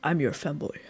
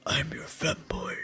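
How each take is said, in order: First: Femboy ASMR voice. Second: Slow, hushed femboy ASMR whisper. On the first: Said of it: "Hey, babe, I'm a". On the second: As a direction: whisper it slowly, low and soft. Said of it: "You wanna whisper it?". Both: Acted.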